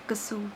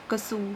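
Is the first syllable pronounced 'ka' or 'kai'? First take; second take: ka; ka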